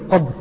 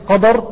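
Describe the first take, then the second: First: No vowel follows the d sound. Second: An a vowel follows the d sound. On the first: "بتسكين الدال" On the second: "بكسر بمعذرة من فتح الدال"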